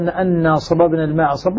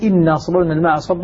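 First: The first word begins with an 'a' vowel. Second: The first word begins with an 'i' vowel. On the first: "الذين يقرؤون بالفتح بأن لهم الكوفيون" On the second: "ولما يكون بالكسر تكون استئنافية"

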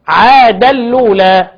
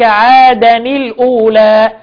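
First: The n is merged into the next word's sound. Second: The nunation n is pronounced clearly before the second word. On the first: This is the reading of Nafi and Abu Amr. "نافع وابو عمرو بالإدغام يقولوا إيه؟" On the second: This is the reading of the Kufans, Ibn Kathir and Ibn Amir. "الكوفيين يقولوا إيه؟"

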